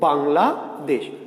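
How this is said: The word is split into two parts. The speaker calls it wrong. "আমি দুইবারে বলবো"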